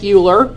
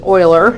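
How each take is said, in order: First: The name is pronounced the anglicized, look-alike way. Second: The name is pronounced the native, non-anglicized way. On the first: The speaker calls it wrong. "It looks like Euler" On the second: The speaker calls it right. "but it's Euler"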